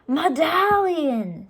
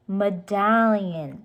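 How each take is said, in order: First: "Medallion" slow, high and louder, fed-up; exasperated correction. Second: "Medallion" said slowly and deliberately, each syllable clear; corrective stress. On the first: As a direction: drag out "Medallion" like the third correction. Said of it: "said Jack for the third time". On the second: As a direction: stretch out "Medallion" to correct her. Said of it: "said Jack, "not medal". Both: Acted.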